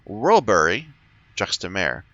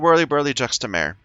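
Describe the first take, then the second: First: The first part sounds like one single word. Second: The first part sounds like two rhyming words. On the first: The speaker calls it right. "It's Whirlbury Juxtamare" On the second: The speaker calls it wrong. "I'm saying it wrong"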